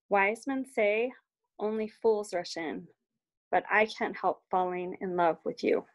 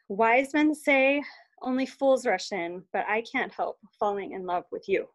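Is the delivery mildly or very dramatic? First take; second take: mildly; very. First: It is said with some soulful feeling. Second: It is said with bigger, more dramatic feeling.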